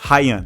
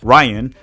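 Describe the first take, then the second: First: The name is pronounced with Portuguese sounds. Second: The name is pronounced as the English name. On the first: The speaker calls it right. "but it's Ryan. That's how you pronounce it" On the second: The speaker calls it wrong. "if you read it in English, it almost looks like Ryan"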